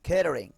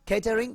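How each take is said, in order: First: The t is a soft, flapped American D. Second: The t is said as a crisp T.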